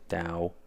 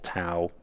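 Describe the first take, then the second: First: The word begins with a D sound. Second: The word begins with a T sound. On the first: "some people pronounce it Dow" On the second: "called Tau"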